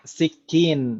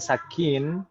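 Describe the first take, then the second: First: The first vowel is an 'i' sound. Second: The first vowel is an 'a' sound. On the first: The speaker calls it right. "ini bacanya sikin" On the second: The speaker calls it wrong. "ini bacanya bukan sakin"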